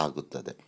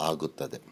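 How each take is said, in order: No difference in how they are said.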